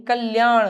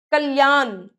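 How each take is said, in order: First: कल्याण ending in curled-tongue ṇ; "kalyaaṇ" with retroflex end. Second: कल्याण ending in plain n; tongue on teeth for the end of कल्याण; dental-n error. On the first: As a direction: flap the last sound of कल्याण. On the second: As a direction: say कल्याण wrongly as "kalyaan". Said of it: "नहीं". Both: Shown as a demonstration.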